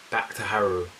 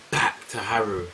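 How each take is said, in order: Both takes have the same delivery.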